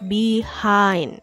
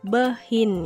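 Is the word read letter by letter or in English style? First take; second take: English style; letter by letter. First: The word is said with English pronunciation. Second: The word is read as written, Indonesian style. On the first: The speaker calls it right. "tetapi behind" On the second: The speaker calls it wrong. "dibacanya bukan behind ya"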